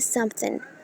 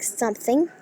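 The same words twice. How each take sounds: First: The word ends in a plain n sound. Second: The word ends with a full ng sound. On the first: "we have to pronounce it something" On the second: "if there is a word like something"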